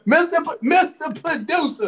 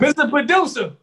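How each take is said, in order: First: Higher, excited call-out. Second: Laughing while calling out. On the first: Calling out the producer again, higher. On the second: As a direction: call him out through a laugh. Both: Real, not acted.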